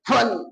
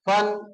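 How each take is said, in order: First: It is pushed out with a forceful jerk. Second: It is said evenly without extra force. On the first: The speaker calls it wrong. "कुछ बच्चे करते फन, गलत है" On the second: The speaker calls it right. "सीधा फन"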